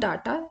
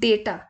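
First: The first syllable has an ah vowel. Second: The first syllable has an ay vowel. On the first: The speaker calls it wrong. "But it's not डाटा" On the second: The speaker calls it right. "It's डेटा"

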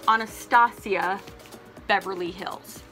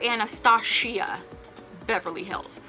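First: Anastasia is said with a plain 's' sound. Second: Anastasia is said with an 'sh' sound. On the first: The speaker calls it right. "That is how it's pronounced" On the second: The speaker calls it wrong. "I cannot stand when people call it"

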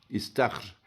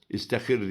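First: It is said as istahr, with no vowel after h. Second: It is said as istihir, with an extra i and i. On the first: The speaker calls it right. "İstahr olacak" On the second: The speaker calls it wrong. "İstihir diyenler var. ... Hepsi yanlış"

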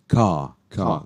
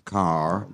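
First: The final R sound is silent. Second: The final R sound is pronounced. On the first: "The R is there, but you don't pronounce the R" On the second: "if you're American"

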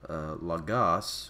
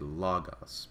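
First: The stress is on the second syllable. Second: The stress is on the first syllable. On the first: The speaker calls it wrong. "rather than saying logos" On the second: The speaker calls it right. "we say logos because the accent is on the first omicron"

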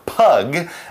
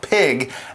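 First: The vowel sounds like 'uh' as in pug. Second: The vowel sounds like 'ih' as in pig. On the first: This is how the word was said long ago. "as they said it back in the old days" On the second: This is how the word is said today. "as we say it nowadays"

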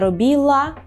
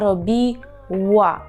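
First: The sound before the final a is an L. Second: The sound before the final a is a W. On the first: The speaker calls it wrong. "не робіла" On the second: The speaker calls it right. "а робіла. І губи витягуємо трубочкою"

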